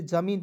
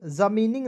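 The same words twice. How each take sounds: First: ज़मीन ending cleanly on n; correct reading. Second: ज़मीनिंग with an extra -ing ending; wrong reading. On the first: Teacher corrects the typo for students, ज़मीन ending on plain n. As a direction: say ज़मीन in two syllables, no -ing. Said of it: "इसे ज़मीन पढ़ेंगे". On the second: Teacher shows students the misreading, ज़मीनिंग with -ing tacked on. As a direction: read ज़मीनिंग letter by letter, ending in -ning. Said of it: "ज़मीनिंग नहीं पढ़ेंगे". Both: Shown as a demonstration.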